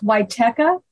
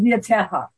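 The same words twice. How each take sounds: First: The surname is said with English sounds. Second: The surname is said with Polish sounds. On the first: This is how the family name is said in North America. "It's pronounced Wichetka, like the YMCA, Teka" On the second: This is how the older Polish relatives said the name. "that was the Polish way of saying it"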